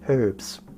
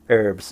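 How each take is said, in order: First: It is said the British way, with the h. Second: It is said the American way, without the h.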